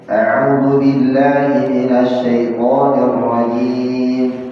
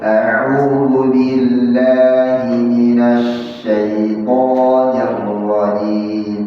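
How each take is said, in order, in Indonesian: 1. Dibaca dengan tempo sedang. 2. Dibaca sangat pelan. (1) "Hadar ini enggak terlalu cepat, enggak terlalu pelan. Ya, jadi pertengahan dia" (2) "itu namanya cara membaca dengan tahqiq. Bacaan yang pelan sekali"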